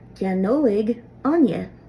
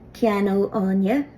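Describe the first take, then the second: First: The verb ending is an 'oig' sound. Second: The verb ending is a plain 'o' sound. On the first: "in the Munster dialect in the very south of Ireland, this ending will be pronounced Owig" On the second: "in South Connacht, around the Galway area, this ending will be pronounced O always"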